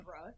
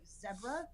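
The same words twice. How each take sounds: First: It is said in an American accent. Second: It is said in an English accent.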